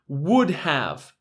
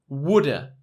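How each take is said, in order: First: The word have is said in full. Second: Have is reduced to a short uh sound.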